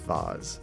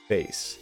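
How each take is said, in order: First: It is said with a British pronunciation. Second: It is said with an American pronunciation. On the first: "I'm gonna think the English way of saying it is vase" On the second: "I would say it as an American"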